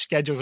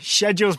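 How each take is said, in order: First: It is said with an American pronunciation. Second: It is said with a British pronunciation.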